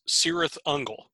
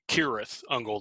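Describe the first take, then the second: First: The first word starts with a soft S sound. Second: The first word starts with a hard K sound. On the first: The speaker calls it wrong. "Even though they're mispronouncing it" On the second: The speaker calls it right. "The C should have a hard K sound"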